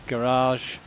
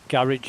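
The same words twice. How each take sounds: First: It is said with an American accent. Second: It is said with a British accent.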